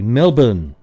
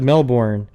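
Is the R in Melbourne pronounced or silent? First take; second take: silent; pronounced. First: The R sound in the word is silent. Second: The R sound in the word is pronounced. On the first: The speaker calls it right. "it's actually Melbourne. You don't say the R" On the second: The speaker calls it wrong. "when I just said Melbourne"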